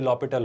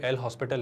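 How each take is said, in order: First: The h and s sounds are silent. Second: The h and s sounds are pronounced. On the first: The speaker calls it right. "इसमें एच silent होता है" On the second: The speaker calls it wrong. "ये एल हॉस्पिटल नहीं होता है"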